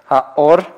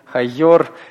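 First: The o vowel follows with no y sound. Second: A y sound comes before the o vowel. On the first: The speaker calls it right. "просто начинайте говорить гласное" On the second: The speaker calls it wrong. "Почему вы все хотите йод добавить к букве алеф? ... не надо так"

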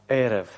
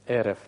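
The two takes are said the same way.

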